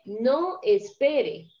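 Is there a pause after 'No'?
no. It is said without a pause after no.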